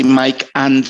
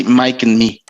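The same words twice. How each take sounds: First: "Mike and" with a full, separate "and"; careful, spelled-out "Mike and"; wrong pronunciation. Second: "Mike and me" run together as "Mike'n me"; smooth linked "Mike and me"; linked pronunciation. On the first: Teacher showing students the form not to use. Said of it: "We don't say Mike and". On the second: Teacher showing students the natural linked form. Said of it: "we simply say Mike and me". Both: Shown as a demonstration.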